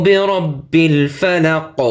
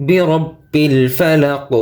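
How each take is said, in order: No difference in how they are said.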